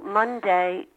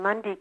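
First: The last syllable is full, like 'day'. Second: The last syllable is reduced, like 'dee'. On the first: This is the newer pronunciation used by younger people. "the young people in the family go Monday" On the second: This is the older, traditional pronunciation. "Philadelphians of my generation go somewhere on Monday"

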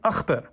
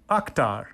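First: The first consonant is a rough throaty guttural. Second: The first consonant is a plain hard k. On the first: It is how the name is said in Pakistan. "Father reverted to the native KH guttural sound" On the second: It is the way English speakers usually say it. "So Ak, like octopus?"

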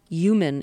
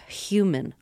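First: The word begins with a Y sound. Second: The word begins with an H sound. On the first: "using a Y sound instead of an H sound" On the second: "instead of an H sound"

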